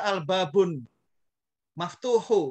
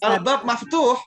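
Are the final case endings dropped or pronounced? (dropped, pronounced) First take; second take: pronounced; dropped. First: The words end with their full case endings. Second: The words end without their final case vowels. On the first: The reading shows whether the grammar is understood. The speaker calls it right. "kalau kita suruh baca lengkap" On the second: The reading hides whether the grammar is understood. The speaker calls it wrong. "Kalau kita baca albab maftuh, nggak ada ilmunya"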